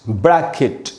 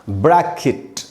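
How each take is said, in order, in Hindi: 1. आखिरी अक्षर में 'ih' स्वर है। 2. आखिरी अक्षर में 'ih' स्वर है।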